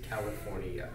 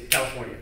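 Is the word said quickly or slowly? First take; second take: slowly; quickly. First: The word is said slowly with clear syllables. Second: The word is said quickly and run together. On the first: The speaker calls it right. "Say it slower and a little bit more clear" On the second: The speaker calls it wrong. "Don't say California"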